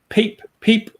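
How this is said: It is said in a Stockholm accent. "in Stockholm they would say"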